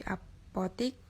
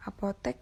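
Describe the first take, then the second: First: "apotik" with I in the last syllable; "apotik" as the non-standard form of apotek; non-standard pronunciation. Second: Said in the usual way. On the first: Shown as a demonstration. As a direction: say "apotik", ending in -tik rather than -tek. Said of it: "menjadi apotik". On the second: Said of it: "contoh kata baku dan kata".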